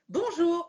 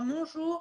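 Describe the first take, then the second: First: It is said brightly, with high energy. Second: It is said limply, with low energy.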